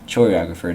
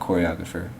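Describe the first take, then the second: First: It begins with a 'ch' sound, like 'chore'. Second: It begins with a 'k' sound, like 'core'. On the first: A person who assigns chores. The speaker calls it right. "So this word is choreographer, ... It's the person who, who assigns chores" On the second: A person who arranges dances. The speaker calls it wrong. "not choreographer"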